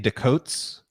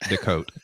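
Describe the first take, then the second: First: The final S sound is clearly pronounced. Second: The final S sound is not pronounced. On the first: The name is said the English way. "I used to say Decotes and pronounce the S at the end" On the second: The name is said the French way. "in French you don't pronounce the S's"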